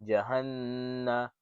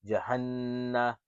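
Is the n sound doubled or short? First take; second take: doubled; doubled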